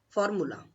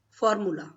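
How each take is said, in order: The two takes are said the same way.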